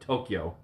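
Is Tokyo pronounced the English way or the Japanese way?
Japanese. It is pronounced the Japanese way. This is how Japanese speakers say it. "instead of Tokyo"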